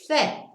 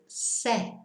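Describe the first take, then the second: First: The first consonant is a lisped th sound. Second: The first consonant is a plain s sound. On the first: This is the Castilian pronunciation of Spain. "It's lisped" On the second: This is the South American pronunciation. "they don't do the list, so they go se"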